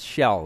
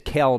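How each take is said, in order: First: The name begins with an SH sound. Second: The name begins with a hard K sound. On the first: The speaker calls it right. "but it's Shell" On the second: The speaker calls it wrong. "it looks like it says Kel"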